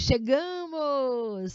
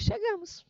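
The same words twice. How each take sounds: First: "chegamos!" drawn out slow and louder with emotion; exclamation. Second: "chegamos" said as a plain statement, high. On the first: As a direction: exclaim "chegamos!" long and loud. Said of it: "Você lê nesse tom". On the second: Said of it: "Aí a segunda diz". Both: Shown as a demonstration.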